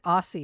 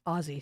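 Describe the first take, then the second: First: The middle consonant is an S sound. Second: The middle consonant is a Z sound. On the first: The speaker calls it wrong. "I said Aussie" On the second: The speaker calls it right. "It's Aussie"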